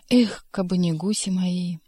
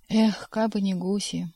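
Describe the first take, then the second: First: Sighing lament. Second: Slow wistful sigh on эх; drawn-out эх with a sigh; sighing lament. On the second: (протяжно вздыхая на «эх») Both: A narrator's reading. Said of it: "он опять завздыхал".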